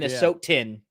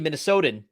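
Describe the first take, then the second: First: The T is pronounced as a crisp, clear T. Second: The T is softened to sound like a D.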